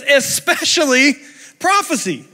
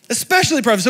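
First: "Especially" stretched slowly and pitched high, then "prophecy" lifted higher still; slow, lifted weight on both words; drawn-out emphasis. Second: Said in the usual way. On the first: Shown as a demonstration.

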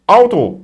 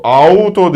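First: "Auto" with a German "au", firm and falling; right German "Auto". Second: "Auto" said in a wrong way, set against the right one. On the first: Teacher giving class the correct "Auto". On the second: Teacher showing the class the wrong "Auto". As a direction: say "Auto" as the mistake. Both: Shown as a demonstration. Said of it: "Auto değil".

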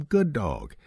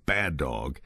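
First: Higher, bright praise; praising. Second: Firm low scolding; stern. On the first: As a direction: praise the puppy warmly. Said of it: "Give them praise". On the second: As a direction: scold the dog firmly. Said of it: "Use a stern voice". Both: Shown as a demonstration.

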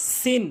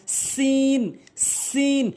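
First: সিন with a short vowel; mispronounced সিন. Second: সিন with sharp s and long "ee"; tongue tip to teeth, stretch সিন to "seen"; correct সিন. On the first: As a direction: say সিন briefly, as "sin". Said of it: "ভুল উচ্চারণ". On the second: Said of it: "সঠিক উচ্চারণ হচ্ছে". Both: Shown as a demonstration.

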